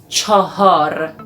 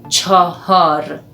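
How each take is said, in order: No difference in how they are said.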